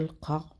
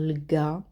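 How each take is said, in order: First: It is said with a back Q sound. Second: It is said with a hard G sound.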